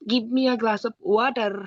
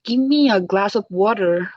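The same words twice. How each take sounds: First: It has an Indian accent with a heavy r. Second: It has an American accent with the r sounded. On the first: "ইন্ডিয়ানরা যেমন বলে" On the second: "but আমেরিকানরা করে"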